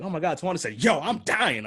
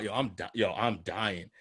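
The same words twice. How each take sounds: First: Higher, overdone coworker imitation; exaggerated mock version. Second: Said in the usual way. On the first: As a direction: ham up the quote like a caricature. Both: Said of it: "I didn't say it like that".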